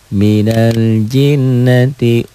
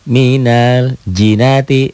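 First: The n sound is held long and doubled. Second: The n sound is short and single. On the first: The speaker calls it right. "Balikin lagi" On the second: The speaker calls it wrong. "Coba tasjid ini enggak ada. Bacanya jadi minal jinati tuh"

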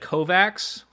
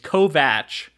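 First: The name ends with a 'ks' sound. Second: The name ends with a 'ch' sound. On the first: The speaker calls it wrong. "I said Kovacs for every time I said his name" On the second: The speaker calls it right. "It's Kovach"

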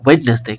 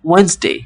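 First: A d sound is pronounced in the middle. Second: No d sound is pronounced in the middle. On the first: The speaker calls it wrong. "এখানে ডিটা উচ্চারণ করি আমরা" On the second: The speaker calls it right. "এখানে ডিটা উজ্জ থাকবে"

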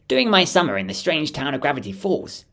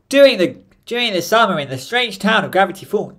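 First: It is read in a natural speaking voice. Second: It is said in a put-on character voice. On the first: "I don't know how to do his voice" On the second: "That's more Bill"

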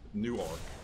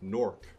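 First: It is said the Delaware local way. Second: It is said the New Jersey local way. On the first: The speaker is from the Delaware city. "Newark if you're from Delaware" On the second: The speaker is from the New Jersey city. "which is how you pronounce Newark from New Jersey"

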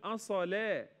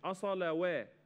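First: The vowel is a long a with no w. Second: A w sound is pronounced before the a. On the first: The speaker calls it right. "فبننطقها ألف، بنقول أصلا" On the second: The speaker calls it wrong. "مش أصلا وا"

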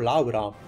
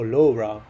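First: The name is pronounced with Italian sounds. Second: The name is pronounced with English sounds.

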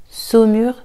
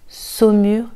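No difference in how they are said.

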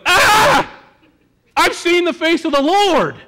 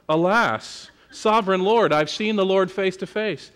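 First: It is said in a frightened, panicked manner. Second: It is said in a grand, theatrical manner.

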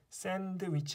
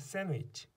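First: The d sound is pronounced in the middle. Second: The d sound is silent in the middle. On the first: The speaker calls it wrong. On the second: The speaker calls it right.

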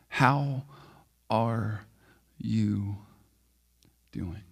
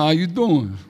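First: It is said slowly and earnestly. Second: It is said quickly as a casual greeting.

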